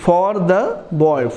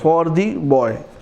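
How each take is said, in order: First: The word 'the' has a short 'thuh' vowel. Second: The word 'the' has a long 'thee' vowel. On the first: "द" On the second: "दी"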